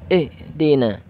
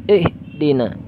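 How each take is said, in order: Both takes have the same delivery.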